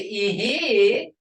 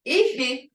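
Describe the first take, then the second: First: "ihi" with a rising tone, meaning yes. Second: "Ihi" with a falling tone, meaning husband. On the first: Teacher demonstrating Muskogee tone for students, rising ihi. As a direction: lift "ihi" up at the end. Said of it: "that's yes". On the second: Teacher demonstrating Muskogee tone for students, falling ihi. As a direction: let "Ihi" drop at the end. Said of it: "but if you say ihi". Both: Shown as a demonstration.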